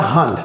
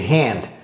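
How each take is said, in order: First: The vowel sounds French. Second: The vowel sounds English. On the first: The speaker calls it wrong. "C'est pas hand" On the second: The speaker calls it right. "La main, c'est hand"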